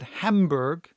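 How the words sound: The name is said with English pronunciation.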